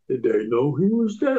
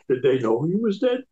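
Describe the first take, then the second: First: It is said in a Brooklyn accent. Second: It is said in a plain, ordinary accent. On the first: The speaker calls it right. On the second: The speaker calls it wrong.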